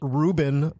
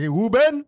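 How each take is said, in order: First: The name starts with an R sound. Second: The name starts with a W sound. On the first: This is the speaker's own way of saying the name. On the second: This is how the speaker's father said the name.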